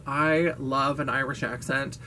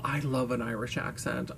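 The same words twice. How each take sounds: First: Said in the usual way. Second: Much softer, almost to herself; a soft, swooning murmur; dreamy hushed aside. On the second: Shown as a demonstration. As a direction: say it softly, lost in a daydream.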